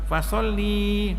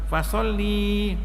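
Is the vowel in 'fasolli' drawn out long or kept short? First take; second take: long; long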